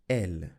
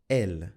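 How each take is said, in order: The two takes are said the same way.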